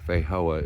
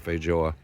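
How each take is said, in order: First: The middle consonant is not a J sound. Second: The middle consonant is a J sound. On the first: The speaker calls it wrong. "it's not Feijoa" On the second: The speaker calls it right. "you pronounce a J"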